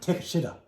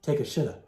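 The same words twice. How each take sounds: First: The name is said with American pronunciation. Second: The same.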